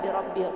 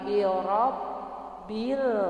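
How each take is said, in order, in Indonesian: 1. Konsonan ganda itu pendek, tidak ditekan. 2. Konsonan ganda itu ditekan dan ditahan lama. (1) "bukan birob bil" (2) "ditekan ya Bu ya, ditekan"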